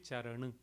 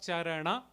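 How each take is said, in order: First: The final vowel is muted or dropped. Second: The word ends with a full open 'a'. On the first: This is the North Indian pronunciation. "Here it will be" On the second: This is the Sanskrit pronunciation. "is how we would pronounce it in Sanskrit"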